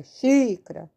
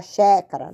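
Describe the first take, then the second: First: Xícara with a long "shee" at the start; correct í vowel. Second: Xécara with open "sheh" in place of "shee"; mispronounced open é. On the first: Teacher correcting xécara to xícara, clear long í. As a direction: stretch the first í of xícara. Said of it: "é xícara". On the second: Teacher showing the mistaken reading xécara, open é. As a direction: say xécara, first vowel wide open and punched. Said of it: "Não é xécara". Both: Shown as a demonstration.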